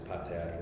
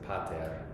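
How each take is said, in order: First: The stress is on the last syllable. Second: The stress is on the first syllable. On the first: The speaker calls it right. "It's on the, the last syllable there" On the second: The speaker calls it wrong. "I put the accent on the wrong on the wrong syllable and said pater"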